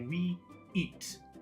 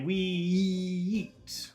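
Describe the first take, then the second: First: The two words are separated by a short stop. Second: The two words run together with a linking sound. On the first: "you can stop if you want. You can say we eat" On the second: "most people will put the two words together and say we eat"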